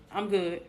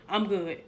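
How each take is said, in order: Both takes have the same delivery.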